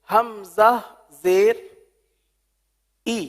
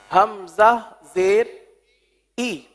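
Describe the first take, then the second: Both takes have the same delivery.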